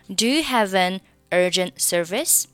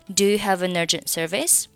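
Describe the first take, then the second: First: Only 'have' and 'an' are linked together. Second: 'Have', 'an' and 'urgent' are linked together. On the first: "你可以选择仅仅是have 和an 的连读 这样会更加简单一点" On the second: "三个单词连读你就读成"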